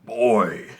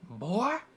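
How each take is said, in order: First: It is a deep booming Kratos voice. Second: It is said in a silly accent.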